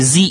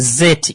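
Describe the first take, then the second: First: It is said the American way, as zee. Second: It is said the British way, as zed.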